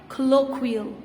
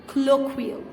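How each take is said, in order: The two takes are said the same way.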